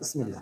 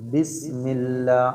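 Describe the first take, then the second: First: The word starts without a clear b sound. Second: The word starts with a clear b sound. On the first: The speaker calls it wrong. "അങ്ങനെയല്ല, ബാ ശരിക്കും പറയണം" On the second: The speaker calls it right. "അപ്പൊ ശരിക്കും ബിസ്മില്ല"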